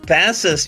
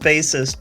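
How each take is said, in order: First: The first part sounds like the fish 'bass'. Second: The first part sounds like the word 'base'. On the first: Someone who plays a fish. The speaker calls it wrong. "not ba bassist. Would be if he was playing a fish" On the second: A player of the bass instrument. The speaker calls it right. "It's bassist"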